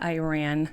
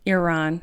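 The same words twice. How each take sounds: First: It is said with a Midwestern pronunciation. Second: It is said with a non-Midwestern pronunciation. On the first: The speaker calls it wrong. "I'm from the Midwest, so we say things like Iran" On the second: The speaker calls it right. "sorry. I'm trying to work on my pronunciation of Iran"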